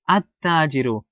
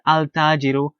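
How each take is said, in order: First: The l blends into a doubled t sound. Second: The l sound is clearly pronounced before t. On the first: The speaker calls it right. "Rather, you say At-Tajiru" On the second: The speaker calls it wrong. "you don't say Al-Tajiru"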